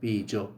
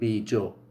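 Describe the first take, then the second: First: The word begins with a b sound. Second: The word begins with a b sound.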